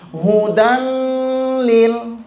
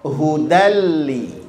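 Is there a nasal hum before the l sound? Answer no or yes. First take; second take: yes; no. First: The n is nasalized with a hum. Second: The n merges into l without a hum. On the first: The speaker calls it wrong. "tidak dibaca hudan lil, tidak didengungkan" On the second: The speaker calls it right. "tapi dibaca hudalli"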